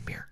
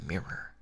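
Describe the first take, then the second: First: "mirror" squeezed into one syllable, MEER; Maryland mirror. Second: "mirror" in two syllables, MEER-er; standard two-syllable mirror. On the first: Streamer showing how Maryland says it, "mirror" as MEER. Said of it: "people in Maryland". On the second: Streamer showing what Marylanders don't say, "mirror" as MEER-er. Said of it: "they don't say mirror". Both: Shown as a demonstration.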